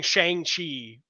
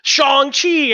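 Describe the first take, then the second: First: Shang-Chi drawn out with an "ay" vowel; old pronunciation. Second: Shang-Chi high and loud, with an "ah" vowel; corrected pronunciation. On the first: Shown as a demonstration. Host admits his old way, Shang-Chi said as "shayng-chee". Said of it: "that's not how you say it". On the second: Retold or imitated. Imitating people correcting him, Shang-Chi said as "shahng-chee". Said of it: "and then people were like".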